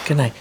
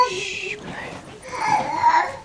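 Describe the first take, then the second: First: Said in the usual way. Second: Slow high hushed good night; hushed lullaby. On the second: Real, not acted.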